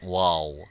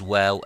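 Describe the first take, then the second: First: The letter is said heavy, with a full mouth. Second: The letter is said light, without a full mouth. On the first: The speaker calls it wrong. "and not waw" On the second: The speaker calls it right. "it is waw"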